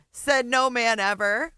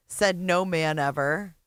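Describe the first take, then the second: First: Said no man ever, punched louder and higher; louder, higher retake. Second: Said in the usual way. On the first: Shown as a demonstration. Host repeats her joke to the chat, louder and higher.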